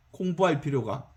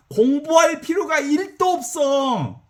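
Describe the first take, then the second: First: 공부할 필요가 dropped low and soft; quiet echo. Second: 공부할 필요가 일 도 없어, 도 stretched long, high and slow; slow emphatic stress on 도. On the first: Preacher echoing his point, low and soft. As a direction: murmur 공부할 필요가 back to yourself. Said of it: "quiet echo of line 42". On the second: Preacher to congregation, 도 stretched slow and high. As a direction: lean hard on 도, drawn out. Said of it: "emphatic repeat on 도". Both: Shown as a demonstration.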